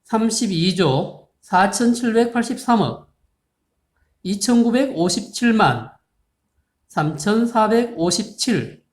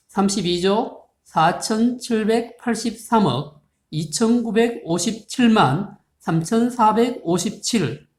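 First: Pauses between each unit group; chunked reading. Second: Reads the huge number slowly in one long flow; slow number reading. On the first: Teacher rereading the number for students, split into chunks. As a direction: break the number at 억 and 만 with clear pauses. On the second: Teacher reading a big number to students, slow and careful. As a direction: spell out every digit group carefully and slowly. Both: Shown as a demonstration. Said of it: "다시 볼까요?".

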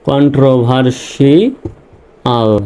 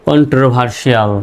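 First: কন্ট্রোভার্সিয়াল stretched slowly, each syllable drawn out; slow teaching read of কন্ট্রোভার্সিয়াল; slow syllable demo. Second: Said in the usual way. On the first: Shown as a demonstration. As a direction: lay out কন্ট্রোভার্সিয়াল slowly part by part. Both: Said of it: "শিয়াল বা শাল".

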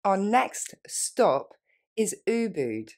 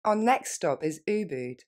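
First: Our next stop drawn out slowly. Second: Natural quick pace; faster. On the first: Teacher modelling for students, very slow. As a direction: stretch it for the learner. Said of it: "Plus lentement". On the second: Teacher modelling for students, quick natural. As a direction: say it quickly, like a native. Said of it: "Et plus rapidement". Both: Shown as a demonstration.

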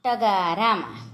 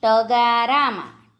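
First: Said in the usual way. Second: ટગારામાં drawn out by syllables; slow word demonstration. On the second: Shown as a demonstration. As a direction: say ટગારામાં slowly for spelling. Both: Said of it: "જોડણી પર ધ્યાન આપજો".

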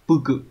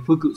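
First: "pư cự" with a hard unaspirated p; pư cự, after the sound change. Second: "phư cự" with a breathy ph at the start; phư cự, before the sound change. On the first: Teacher gives the changed reading "pư cự". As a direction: say "pư cự" with a crisp plain p. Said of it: "sẽ biến thành". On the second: Teacher shows the unchanged reading "phư cự". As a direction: say "phư cự" with an aspirated ph. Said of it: "phư cự sẽ biến thành". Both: Shown as a demonstration.

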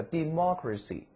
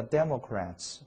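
First: "democracy" stressed on MOC; "democracy" with the punch after a short "de"; stress on second syllable. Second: "Democrats" stressed on DEM; "Democrats" with the first syllable punched. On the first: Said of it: "重音到最前面了，特别注意重音位置". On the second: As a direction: hit the very front of "Democrats": DEM-o-crats. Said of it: "重音到最前面了". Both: Shown as a demonstration.

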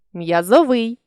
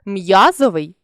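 First: М'язовий with final ВИЙ stressed; stress on last syllable. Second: М'язовий with М'Я stressed; stress on first syllable. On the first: Teacher shows a stress variant, м'язовий stressed on ВИЙ. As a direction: land on ВИЙ ending м'язовий. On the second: Teacher shows a stress variant, м'язовий stressed on М'Я. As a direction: punch the opening М'Я of м'язовий. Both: Shown as a demonstration. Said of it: "наголосивши той чи інший склад".

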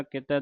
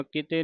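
First: ਕਿਤੈ ending in an open 'eh'; dulavan ending. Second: ਕਿਤੇ ending in a close 'ay'; single-lav ending. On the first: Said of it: "ਦਲਾਵਾਂ ਦੇ ਨਾਲ". (ਕਿਤੈ ਦਲਾਵਾਂ ਦੇ ਨਾਲ) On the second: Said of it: "ਨਹੀਂ ਪੜ੍ਹ ਦੇਣਾ". (ਕਿਤੇ ਇੱਕ ਲਾਂ ਨਾਲ) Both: Shown as a demonstration.

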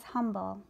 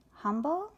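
First: Said in the usual way. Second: "Humble?" asked with a puzzled rising question; puzzled echo. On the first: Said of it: "Humble?" said Charlotte". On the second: A narrator's reading. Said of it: "said Charlotte".

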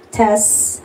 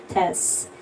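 First: Said in the usual way. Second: Soft unvoiced "Test."; whispered mic test. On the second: Shown as a demonstration. Streamer testing her microphone, whispering "Test.". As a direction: breathe "Test." softly into the mic. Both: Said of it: "Kung gumagana ba yung aking".

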